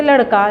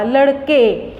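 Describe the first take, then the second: First: Said in the usual way. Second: लड़के with a long drawn-out final ए; stretched final e. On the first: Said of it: "ए में बदल जाता है". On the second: Shown as a demonstration. Teacher showing the class how लड़के ends in ए. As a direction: hold the ए at the end of लड़के. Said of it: "ए आया".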